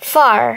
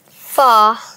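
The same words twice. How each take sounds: First: It is said with an r sound. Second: It is said without an r sound. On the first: "এবার আমেরিকানটা করি।" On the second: "British accent"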